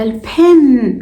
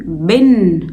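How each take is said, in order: First: Said in the usual way. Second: بن as "ben", voiced B for P, lower; wrong heavy B. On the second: Shown as a demonstration. Teacher showing the class a mistake, pen mispronounced with a B. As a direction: drop pitch and make pen's P a hard B in بن. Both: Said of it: "ينفع أقول على البن".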